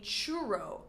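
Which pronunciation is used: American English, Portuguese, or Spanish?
American English. It is said with an American English pronunciation. "in American English, called a churro"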